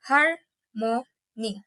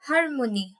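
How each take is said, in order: First: "harmony" slowly split as har, mo, ny; syllable by syllable. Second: Said in the usual way. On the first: Shown as a demonstration. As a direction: pause between each syllable of "harmony". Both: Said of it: "I'm pronouncing it by syllables".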